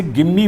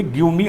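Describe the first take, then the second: First: "Give me" fused as gimme; joined give me. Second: "Give me" with give and me split apart; separate give me. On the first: Teacher telling students how to say it, blended gimme. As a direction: say "Give me" as one word, gimme. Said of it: "बोलेंगे". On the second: Teacher showing students the wrong way, split words. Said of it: "अलग-अलग नहीं बोलेंगे". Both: Shown as a demonstration.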